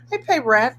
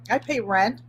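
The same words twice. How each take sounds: First: I pay rent punched higher and louder; emphatic. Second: Said in the usual way. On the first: Real, not acted.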